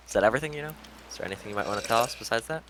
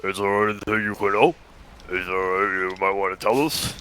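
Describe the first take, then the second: First: Deepest voice attempt. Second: Deeper, more realistic redo; extremely deep bass voice. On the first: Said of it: "I asked in the deepest voice I could summon". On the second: Acted. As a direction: push it down into a bass rumble. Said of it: "She had to make it more realistic".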